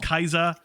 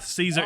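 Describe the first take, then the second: First: The word begins with a K sound. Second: The word begins with an S sound. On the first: This is the Latin way of saying it. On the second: This is the English way of saying it.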